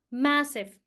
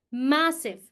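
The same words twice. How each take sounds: The two takes are said the same way.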